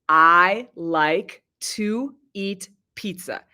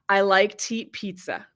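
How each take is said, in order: First: It is said slowly, every word clear. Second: It is said quickly, with 'to' reduced.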